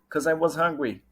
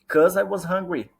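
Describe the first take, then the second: First: The first word is shortened to cause. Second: The first word is shortened to cause.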